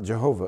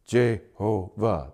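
First: Said in the usual way. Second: "Jehovah" slowly broken into three separate syllables; slow, low, separated syllables on "Jehovah". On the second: Shown as a demonstration. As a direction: count out "Jehovah" as Je, ho, vah. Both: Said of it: "That's three sylla-, syllables".

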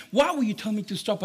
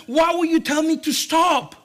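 First: Said in the usual way. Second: Loud, high, exasperated demand. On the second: Acted. Dad questioning his daughter after the false alarm, exasperated. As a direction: protest loudly at being stopped.

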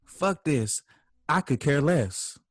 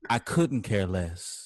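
First: Dismissive arguer. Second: Slow, low, measured "couldn't care less"; deliberate correction. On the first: Acted. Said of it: "and you say". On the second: Shown as a demonstration. Speaker corrects a misused phrase to the crowd, slow and deliberate on "couldn't". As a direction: spell out COULDN'T slowly, voice dropped. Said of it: "When really you meant".

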